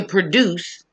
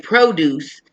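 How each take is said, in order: First: "produce" as the verb, short "pruh" first syllable, stress on "duce"; verb pronunciation. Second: "produce" as the noun, long "proh" first syllable, stress on "pro"; noun pronunciation. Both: Shown as a demonstration. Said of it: "So we pronounce it differently too".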